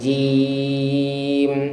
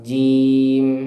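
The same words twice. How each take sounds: First: The vowel is stretched for four beats. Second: The vowel is held for two beats. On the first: "Empat itu jim" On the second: "dua harokat jim"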